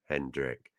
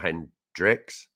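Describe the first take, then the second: First: The name ends without an s sound. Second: The name ends with an added s sound. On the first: It names the player. The speaker calls it right. "And it's Hendrick" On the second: It names the gin brand. The speaker calls it wrong. "he's not a gin... But not Hendrick's"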